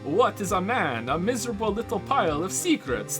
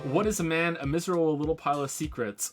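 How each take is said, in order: First: It is said in a put-on vampire voice. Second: It is said in his normal voice.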